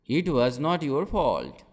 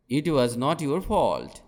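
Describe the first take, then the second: No difference in how they are said.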